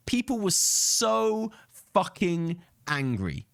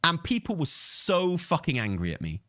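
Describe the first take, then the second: First: Slow, drawn-out emphasis on "People" and "fucking"; slow emphatic repeat. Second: Said in the usual way. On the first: Real, not acted. Telling viewers how angry the chat got, drawn out slow. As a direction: lean hard on "fucking angry", each word stretched out.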